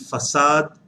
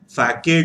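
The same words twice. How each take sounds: First: The word is pronounced the French way. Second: The word is pronounced the English way. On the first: "facade in French" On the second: "facade in English"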